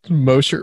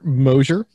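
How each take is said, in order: First: The middle consonant is a plain 'sh' sound. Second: The middle consonant is a voiced 'zh' sound.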